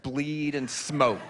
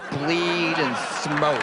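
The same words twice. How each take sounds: First: Said in the usual way. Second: Very slow, stretched BLEED and SMOKE; drawn-out repeat. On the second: Real, not acted. Comedian relishing the bar girls' routine, slow drawn-out repeat. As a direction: linger on "bleed" and "smoke", drawing each out. Repeats the phrase for comic effect.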